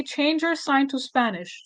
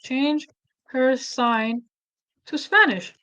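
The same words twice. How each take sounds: First: Said in the usual way. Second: "Change" ... "her sign" ... "to Spanish" split by pauses; slow, clear dictation to the AI; dictating command. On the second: Shown as a demonstration. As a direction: spell out the prompt word by word. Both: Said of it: "I can now say".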